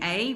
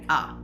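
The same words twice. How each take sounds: First: The vowel is said in its full form. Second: The vowel is said in its weak form. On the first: The speaker calls it wrong. "Instead of saying a" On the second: The speaker calls it right. "a here is used in the weak form"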